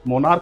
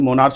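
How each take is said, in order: First: The word ends with a k sound. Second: The word ends with a ch sound. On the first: The speaker calls it right. "मोनार्क बोल रहे हैं हम" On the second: The speaker calls it wrong. "ना कि मोनार्च बोल रहे हैं"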